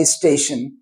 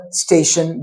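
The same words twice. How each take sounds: First: "station" with i before the st, istation; added opening vowel on "station"; Hindi-speaker e prefix. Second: Said in the usual way. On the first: Shown as a demonstration. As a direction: say "station" as is-tation. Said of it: "e, in front of it". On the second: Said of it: "because they don't have station".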